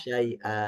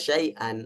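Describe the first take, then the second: First: The word ends in a long a vowel. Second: The word ends in an n sound. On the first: The word is read at a pause. "dibaca mad iwad" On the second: This is the basic form of the word. "Aslinya syai'an"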